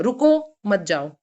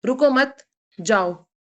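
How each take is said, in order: First: Slow, clear stop after रुको, then मत जाओ; रुको on its own, मत जाओ joined; pause after रुको. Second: Slow रुको मत joined, long gap, then जाओ; pause after मत. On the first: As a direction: leave a gap between रुको and मत. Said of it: "रुको के बाद जिसमें कॉमा है". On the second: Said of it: "रुको मत" के बाद कॉमा आएगा". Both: Shown as a demonstration.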